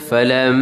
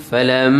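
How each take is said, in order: The two takes are said the same way.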